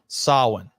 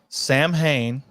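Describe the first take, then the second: First: The word is said with no 'm' sound. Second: The word is said with an 'm' sound. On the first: It follows the original Celtic pronunciation. The speaker calls it right. "The pronunciation is Samhain, like S A W Y N" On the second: It is read the way it is spelled. The speaker calls it wrong. "Loomis says Sam Hain"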